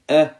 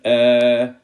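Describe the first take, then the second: First: The vowel is short and clipped. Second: The vowel is drawn out long. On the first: The speaker calls it right. "So we just read" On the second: The speaker calls it wrong. "not a, I, U, that will be wrong"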